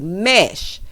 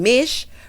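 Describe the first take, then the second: First: The vowel is a short 'eh' sound. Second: The vowel is a short 'ih' sound. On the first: The speaker calls it right. "Girl, it is mesh" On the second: The speaker calls it wrong. "sitting here saying mish"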